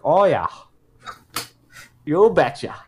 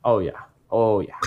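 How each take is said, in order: First: Put-on Minnesota-accented "Oh, yeah. You betcha"; playful Minnesota accent. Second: A hint of Minnesota in "Oh, yeah"; unplanned Minnesota tinge; slight Minnesota accent. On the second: Real, not acted. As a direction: let a touch of Minnesota slip out. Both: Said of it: "I turned Minnesota in there".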